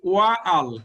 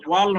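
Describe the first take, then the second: First: The two words are said as separate syllables. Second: The two words merge into one syllable. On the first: The speaker calls it wrong. "ওয়া আল এইভাবে উচ্চারণ হয় না" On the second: The speaker calls it right. "তখন ওয়াল হয়ে যায়"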